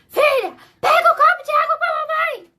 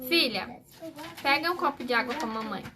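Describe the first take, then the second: First: It is said in an angry, irritated tone. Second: It is said in a calm, gentle tone.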